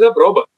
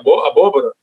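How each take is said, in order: First: The word is shortened to three syllables. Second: The word has four syllables. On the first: This is the everyday sung form of the word. "ele faz abroba" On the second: This is the full form of the word. "jamais o João do Boi dizia abóbora"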